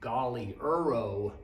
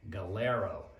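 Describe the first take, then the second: First: The name is said with more syllables. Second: The name is said with fewer syllables. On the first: This is how the name looks like it should be said. "you would think it might be pronounced, and I pronounce it this way for many years" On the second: This is how others have been heard saying it. "but I've heard it pronounced Galero"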